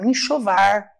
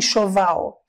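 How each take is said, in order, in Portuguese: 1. A palavra termina com som de R. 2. A palavra termina com som de L. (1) "falam enxovar" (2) "eles não falam enxoval"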